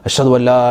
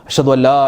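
Both takes have the same delivery.

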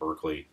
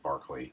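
First: The first syllable sounds like 'burk'. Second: The first syllable sounds like 'bark'. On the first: The speaker calls it wrong. "it's not pronounced like Berkeley" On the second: The speaker calls it right. "It's pronounced like Barkley, like a dog barking"

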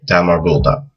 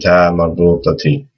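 First: The word ends with no final vowel. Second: The word ends with a final i vowel. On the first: The speaker stops after this word. "if you just stop at the end of the word and you don't continue" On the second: Another word follows without a stop. "with the kasra"

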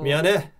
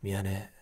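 First: It is said in a plain, friendly tone. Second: It is said in a sticky, romantic tone. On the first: It is a sincere apology to connect with young people. "요거는 이제 20대하고 소통하는 거고" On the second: It sounds like a romantic confession. "애정 감성으로 이제 / 목소리가 너무 끈적끈적하잖아요"

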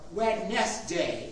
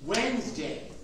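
First: It is said as spelled, with three syllables. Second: It is said the usual way, as two syllables.

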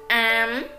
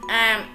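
First: The syllable has a high rising tone. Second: The syllable has a low heavy, clipped tone. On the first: "sắc" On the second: "nặng"

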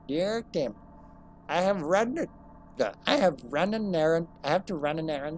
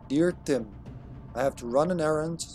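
First: It is read in a put-on older voice. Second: It is read in the speaker's normal voice.

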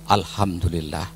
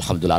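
First: The phrase is said rather slowly and calmly. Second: The phrase is said quickly and hurriedly. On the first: The speaker calls it right. "Secara agak perlahan" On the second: The speaker calls it wrong. "tidak usah terlalu cepat-cepat dan tergesa-gesa"

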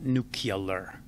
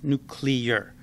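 First: The word is said as nu-cu-lar. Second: The word is said as nu-clear. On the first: The speaker calls it wrong. "not nuclear. Sound like a moron" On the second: The speaker calls it right. "It's nuclear"

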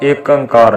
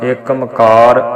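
First: The second word begins with an 'ang' sound. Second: The second word begins with a 'ma' sound. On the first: "ਨਹੀਂ ਪੜ੍ਹਨਾ" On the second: "ਨਹੀਂ ਪੜ੍ਹਨਾ"

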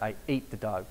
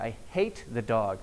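First: The h sound at the start is dropped. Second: The h sound at the start is pronounced. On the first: "Dropping H's" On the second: "he's trying to say"

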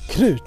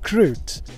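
First: The word is said with Swedish pronunciation. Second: The word is said with English pronunciation. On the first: The speaker calls it right. "KRUT in Swedish" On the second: The speaker calls it wrong. "not KRUT"

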